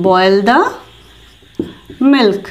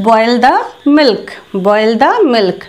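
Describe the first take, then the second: First: Words spaced with long pauses; teacher pacing; slow demo. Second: Said in the usual way. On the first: Shown as a demonstration. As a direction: dictate it slowly. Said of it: "তো এটার জন্য বলবো".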